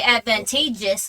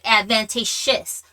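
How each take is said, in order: First: The middle consonant is a 'j' sound. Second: The middle consonant is an 'sh' sound. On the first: "where you say advantageous" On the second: "like advantageous"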